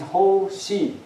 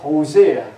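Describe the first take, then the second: First: It is said as two syllables, like hole sea. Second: It is said as three syllables, ho-zay-uh. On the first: It is a memory aid for the name. "I read this way, then it's easy to remember" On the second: It is the standard pronunciation of the name. "But they have to pronounce it Hosea"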